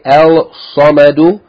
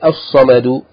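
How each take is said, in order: First: The l of the article is pronounced. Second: The l merges into a doubled s. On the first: The speaker calls it wrong. "You don't say" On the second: The speaker calls it right. "you say"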